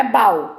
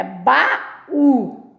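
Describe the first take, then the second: First: "baú" collapsed into one syllable, BAU; "baú" as a single beat like bau; wrongly joined. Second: "baú" as ba-Ú with stress on the ú; "baú" in two clear beats; accented two syllables. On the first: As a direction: stress the a of "baú" and glide into u. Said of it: "Não é baú". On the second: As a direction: split "baú" and land on the accented ú. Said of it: "Tem acento". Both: Shown as a demonstration.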